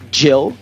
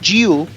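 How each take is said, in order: First: The vowel is a short, lax i sound. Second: The vowel is a long, tense ee sound. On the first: The speaker calls it right. "a gente vai falar Jill ... olha a pronúncia do short I vowel sound" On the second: The speaker calls it wrong. "em vez de Jill"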